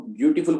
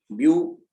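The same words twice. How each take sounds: First: Said in the usual way. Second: beautiful split into three sounds, view, टी, फुल, with clear breaks; syllable by syllable. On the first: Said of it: "तीन अलग-अलग तरह से sound". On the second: Shown as a demonstration. Teacher showing students the syllables, beautiful in three separate parts. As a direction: break beautiful after each syllable, firmly voiced. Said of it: "तीन अलग-अलग तरह से sound हो रही है".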